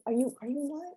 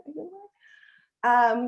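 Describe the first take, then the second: First: High and soft, quick halting question; timid question. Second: Bolder repeated question. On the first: Caribbean kid shyly asking elder women if they are in line, soft and high. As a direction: barely dare to ask it. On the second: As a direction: ask again, this time so they hear. Asking elders if in line. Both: Retold or imitated.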